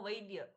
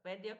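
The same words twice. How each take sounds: First: The word ends with a final 's' sound. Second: The word ends without a final 's' sound. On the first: The speaker calls it right. "ये ऐसे बोलना चाहिए" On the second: The speaker calls it wrong. "वैद्य को"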